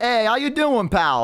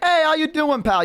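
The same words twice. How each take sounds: First: Put-on high, chummy Boston accent for a goblin. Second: Much higher, salesy Boston goblin greeting; Boston goblin accent. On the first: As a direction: greet like a Boston huckster goblin, much higher. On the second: Retold or imitated. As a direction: hail the orcs like a pushy Boston hawker. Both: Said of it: "they also have, like, a Boston accent".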